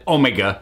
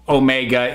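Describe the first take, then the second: First: The name is said with the show's pronunciation. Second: The name is said with an American pronunciation. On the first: This is how the show's actors say it. "they pronounce it Omega" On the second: This is how the speaker naturally says it. "I'm American. I'm gonna say o- Omega"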